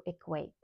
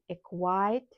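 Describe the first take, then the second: First: Said in the usual way. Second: "equate" wrongly said with an "eye" vowel, like "equite"; mispronounced equate. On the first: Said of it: "instead of equate". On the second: Shown as a demonstration. Teacher showing her mistake from a previous video, "equate" mispronounced as "equite". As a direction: make the end of "equate" rhyme with "kite". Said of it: "I mispronounced this word".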